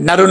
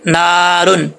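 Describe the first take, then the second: First: The first vowel is short. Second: The first vowel is drawn out long. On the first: The speaker calls it wrong. "नरुन नहीं पढ़ेंगे" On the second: The speaker calls it right. "इसको खींच के पढ़ेंगे"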